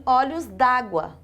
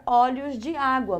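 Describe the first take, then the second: First: Olhos d'água with de fused into água as dá-gua; slow olhos d'água, vowel elided; elided form. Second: Olhos de água with de as its own syllable; full form. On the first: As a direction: drop the vowel of de, saying d'água as one word. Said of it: "Eu suprimi essa vogal aqui". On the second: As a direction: keep the vowel of de before água. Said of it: "é comum eu não escrever". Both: Shown as a demonstration.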